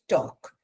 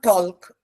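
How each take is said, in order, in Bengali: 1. শব্দটি থেকে L-এর ধ্বনি বাদ যায়। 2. শব্দটিতে L-এর ধ্বনি উচ্চারিত হয়। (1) "L is silent letter" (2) "It's not talk"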